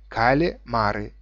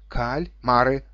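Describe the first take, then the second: First: An extra vowel is inserted after the L. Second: No extra vowel is inserted after the L. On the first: The speaker calls it wrong. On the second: The speaker calls it right.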